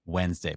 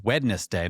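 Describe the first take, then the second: First: "Wednesday" as WENZ-day, the first d silent; corrected pronunciation. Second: "Wednesday" as WED-nes-day, all letters sounded; spelling pronunciation. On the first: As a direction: say "Wednesday" in two syllables, d dropped. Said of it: "correct myself and say". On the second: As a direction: say the written d in "Wednesday", three syllables. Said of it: "pronounce the whole thing". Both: Shown as a demonstration.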